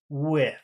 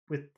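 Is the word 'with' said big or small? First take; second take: big; small. First: The word is loud, long and full. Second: The word is quiet, short and light. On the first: The word is said on its own. "If you're saying the word separately, just alone, it's with. and it's very big" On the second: The word sits inside a sentence. "but not in the middle of a sentence. It usually isn't. It's just with with"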